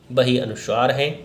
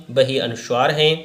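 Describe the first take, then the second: No difference in how they are said.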